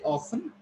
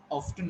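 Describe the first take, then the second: First: "often" as OFF-un, silent T; T-less British "often"; British variant. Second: "often" as OFF-tun, T sounded; American "often" with audible T; American variant. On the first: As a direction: say "often" without the T. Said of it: "one is British". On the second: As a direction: say "often" with a clear T. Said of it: "one is American pronunciation". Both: Shown as a demonstration.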